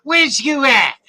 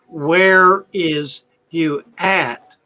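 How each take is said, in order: First: The word 'is' is contracted onto 'where'. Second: The word 'is' is said fully and separately. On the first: The speaker calls it right. "It's spoken where's where's you at?" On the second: The speaker calls it wrong. "It's not spoken that way at all"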